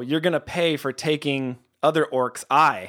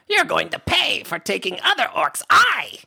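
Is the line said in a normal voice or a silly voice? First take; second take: normal; silly. First: It is said in a plain, normal voice. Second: It is said in a put-on, silly voice.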